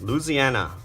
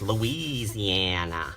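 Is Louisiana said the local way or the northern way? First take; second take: local; northern. First: It is said the way Louisiana locals say it. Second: It is said the way northerners say it. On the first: The speaker is from Louisiana. "that's how the locals say it" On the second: The speaker is from the north. "Those who are from the north or northerners, they're like"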